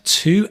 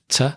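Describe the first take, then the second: First: The word has a full vowel. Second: The word is reduced with a weak vowel.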